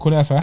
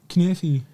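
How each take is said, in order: First: It is said the speaker's own, Egyptian way. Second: It is said the Lebanese way. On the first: "we call it kunafa" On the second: "The Lebanese, I think that's say it completely different"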